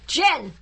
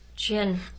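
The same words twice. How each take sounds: First: It is said loudly, almost shouted. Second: It is said quietly, barely audible.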